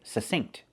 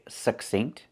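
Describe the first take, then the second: First: No k sound comes before the s. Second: A stopped, unreleased k comes before the s. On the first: "some people don't pronounce the K, they just say succinct" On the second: "they pronounce that k with the stop K"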